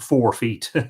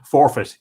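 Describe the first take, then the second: First: The second syllable sounds like 'feet'. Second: The second syllable sounds like 'fit'. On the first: The speaker calls it wrong. "I mispronounced that" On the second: The speaker calls it right. "Forfeit, yes"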